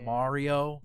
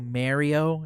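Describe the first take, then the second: First: The first syllable is said without a 'meh' vowel. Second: The first syllable is said with a 'meh' vowel. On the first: The speaker calls it right. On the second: The speaker calls it wrong.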